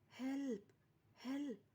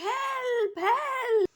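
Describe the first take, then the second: First: It is said quietly. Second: It is said loudly.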